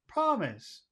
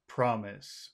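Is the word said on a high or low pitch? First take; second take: high; low. First: The word is said on a high pitch. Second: The word is said on a low pitch. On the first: "should we say that hi?"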